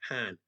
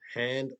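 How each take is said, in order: First: The final consonant is dropped. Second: The final consonant is fully pronounced.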